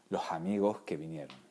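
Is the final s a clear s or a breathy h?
breathy h. The syllable-final s sounds are aspirated like h.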